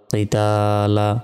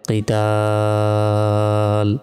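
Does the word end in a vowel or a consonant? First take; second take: vowel; consonant. First: The word ends with a final vowel. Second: The word ends on a consonant. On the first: The reader continues without stopping. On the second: The reader stops on this word.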